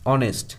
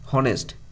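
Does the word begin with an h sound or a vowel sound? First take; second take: vowel sound; h sound. First: The word begins with a vowel sound. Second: The word begins with an h sound. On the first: The speaker calls it right. "Vowel pronunciation দিয়ে শুরু হচ্ছে" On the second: The speaker calls it wrong. "এরকমভাবে নয়"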